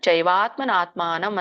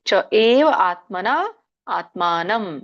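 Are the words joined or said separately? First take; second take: joined; separately. First: The words are run together as one. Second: The words are said separately, unjoined.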